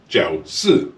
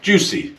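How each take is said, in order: First: The name sounds like the syllables jiao and si. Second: The name sounds like the English word juicy. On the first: The speaker calls it right. "This is actually pronounced Jiao Si" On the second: The speaker calls it wrong. "is not pronounced juicy"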